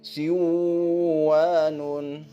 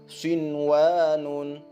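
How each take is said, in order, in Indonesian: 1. n dihilangkan dan menyatu dengan w. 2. n dibunyikan dengan jelas sebelum w. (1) "Jangan dibaca siwanun" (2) "Begitu juga halnya dengan kata sinwanun"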